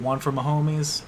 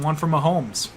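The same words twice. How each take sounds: First: The last word sounds like 'my homies'. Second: The last word sounds like the surname 'Mahomes'. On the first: It is a pun on a common phrase. "that's kind of what I would think there too" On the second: It follows the player's own pronunciation. "which is how he pronounces his name"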